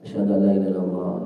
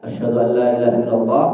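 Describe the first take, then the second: First: It is said softly, at low volume. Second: It is said loudly, at high volume. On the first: "dengan suara lirih, tidak dikeraskan" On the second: "Lalu diulang lagi dengan suara keras"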